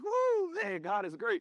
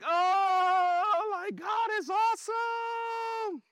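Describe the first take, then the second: First: It is said quietly, held in. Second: It is said loudly, openly expressed.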